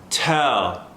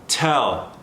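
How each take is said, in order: Both takes have the same delivery.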